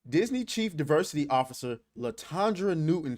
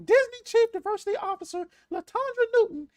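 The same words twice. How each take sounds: First: It is said in the speaker's normal voice. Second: It is said in a high, squeaky cartoon-mouse voice.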